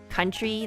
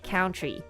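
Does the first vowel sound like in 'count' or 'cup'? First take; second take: cup; count. First: The first vowel sounds like in 'cup'. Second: The first vowel sounds like in 'count'. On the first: The speaker calls it right. "like country, the country of Canada" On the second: The speaker calls it wrong. "like count ... But he said it like country"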